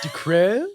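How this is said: The name is said with a British-sounding accent.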